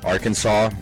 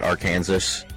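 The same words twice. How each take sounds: First: The word is not said as spelled. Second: The word is said just as spelled. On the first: The speaker calls it right. "It's Arkansas, you pronounce it differently than it's spelled" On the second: The speaker calls it wrong. "not Arkansas"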